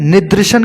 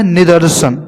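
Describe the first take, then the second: First: निदर्शन as "nidrishan"; mispronounced निदर्शन. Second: निदर्शन as "nidarshan"; corrected निदर्शन. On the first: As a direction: put "dri" in the middle of निदर्शन. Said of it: "की जगह". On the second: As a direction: put "dar" in the middle of निदर्शन. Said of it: "होता है निदर्शन". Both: Shown as a demonstration.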